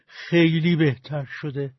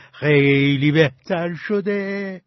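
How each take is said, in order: First: Slowed, firm self-reassurance; convincing himself. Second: Much slower, drawn out, a bit louder; stretched-out reassurance. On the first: Sick man persuading himself in bed, slow and insistent. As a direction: talk himself into feeling better, slowly. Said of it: "به خودش تلقین کرد". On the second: Sick man rubbing his side, slowly insisting he's better. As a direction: linger on every word as if willing it true. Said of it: "به پهلوهاش دست کشید و گفت". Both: A narrator's reading.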